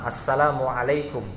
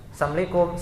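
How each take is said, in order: First: The greeting is said with the full 'salam' sound. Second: The greeting is said as 'sam' without 'la'. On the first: It wishes peace upon the listeners. The speaker calls it right. "Yaitu ucapan salam" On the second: It wishes a curse upon the listeners. The speaker calls it wrong. "sam itu kan artinya kan laknat"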